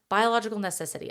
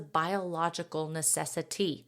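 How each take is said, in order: First: It is said in a put-on cartoonish character voice. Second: It is said in her normal speaking voice.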